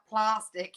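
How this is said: The word is said in a posh way. The speaker calls it wrong. "not plastic. You posh bugger"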